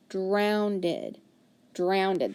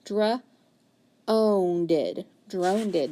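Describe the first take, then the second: First: Drowned-ed with the ow diphthong; sounding out. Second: Dra-owned-ed with a long O, wrong try; sounding out. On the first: Teacher modelling the right try. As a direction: say drowned-ed with ow as in cow. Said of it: "Let's try it with the ow diphthong". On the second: Teacher modelling a wrong first try. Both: Shown as a demonstration.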